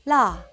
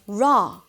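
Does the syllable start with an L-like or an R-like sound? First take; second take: L-like; R-like. First: It starts with a very light L sound. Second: It starts with an English-style R sound. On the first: The speaker calls it right. "it's closer to an L, a very light L" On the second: The speaker calls it wrong. "That's not it"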